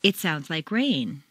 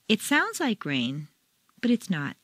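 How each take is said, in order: First: New information, rain stressed; "rain" stressed and falling. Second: "sounds" stressed and rising, doubting; opinion tune. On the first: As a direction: land firmly on rain. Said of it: "Practice the intonation difference". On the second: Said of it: "between new information and opinion". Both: Shown as a demonstration.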